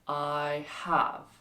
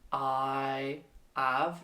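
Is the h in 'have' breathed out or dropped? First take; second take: breathed; dropped. First: The h sound is breathed out clearly. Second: The h sound at the start is dropped. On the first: The speaker calls it right. "like you're blowing on a window" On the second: The speaker calls it wrong.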